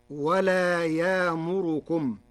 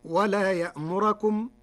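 First: Slow, يامركم with long ya-a and raised ra; yāmurukum with no hamza, slowly; Warsh reading. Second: يأمركم with hamza and fatha on ra; ya'murakum with a glottal stop; Hafs reading. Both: Shown as a demonstration. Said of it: "برفع الراء والإبدال".

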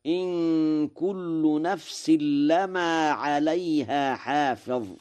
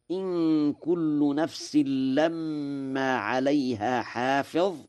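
First: لما as "lamaa" with a single short m; slow, higher recitation, no doubling in لما; light meem. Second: لما as "lammaa" with a held, doubled m; slow recitation, لما said with a heavy doubled meem. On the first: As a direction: pass quickly over the m of لما. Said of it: "بتخفيف الميم". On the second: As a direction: hold the m of لما. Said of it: "بالتشديد". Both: Shown as a demonstration.

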